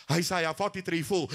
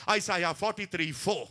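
The two takes are said the same way.

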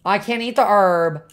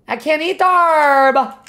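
First: Said in the usual way. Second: Exasperated protest. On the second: Real, not acted. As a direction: repeat it in rising disbelief. Frustrated at game item, repeated.

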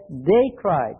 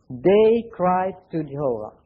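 First: "They" hit hard, "cried" falling after it; "They" leaned on, then "cried" drops away; stress on THEY. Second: "They cried to Jehovah" read slowly, each word weighed; slow down and lay out "They cried to Jehovah" deliberately; measured scripture reading; slow emphatic quote. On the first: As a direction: punch "They" to set the people against Abijah. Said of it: "I want to underline, it says". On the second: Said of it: "I want to underline". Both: Shown as a demonstration.

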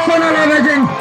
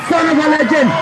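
No difference in how they are said.

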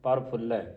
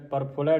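First: ਪ੍ਰਫੁੱਲੈ with a held double l; ਪ੍ਰਫੁੱਲੈ with adhak. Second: ਪ੍ਰਫੁੱਲੈ with a single short l; mispronounced ਪ੍ਰਫੁੱਲੈ. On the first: Teacher modelling the adhak, ਪ੍ਰਫੁੱਲੈ with doubled l. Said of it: "ਅਧਿਕ ਲਾ ਕੇ ਉਚਾਰਨ ਕਰਨਾ". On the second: Teacher showing the reading to avoid, ਪ੍ਰਫੁੱਲੈ with single l. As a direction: say ਪ੍ਰਫੁੱਲੈ without doubling the l. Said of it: "ਪ੍ਰਫੁੱਲੈ ਨਹੀਂ ਪੜਨਾ ਇਹਨੂੰ". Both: Shown as a demonstration.

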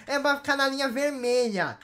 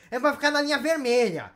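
No difference in how they are said.

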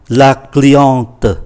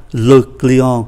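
First: "la cliente" with a sounded final t; feminine form. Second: "le client" ending on a nasal vowel, no t; masculine form. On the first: Teacher gives the female customer word, feminine form. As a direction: finish "la cliente" on an audible t after the nasal vowel. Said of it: "Khách hàng phái nữ là". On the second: Teacher gives the male customer word, masculine form. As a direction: say "le client" with the final t silent. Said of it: "một khách hàng phái nam". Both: Shown as a demonstration.

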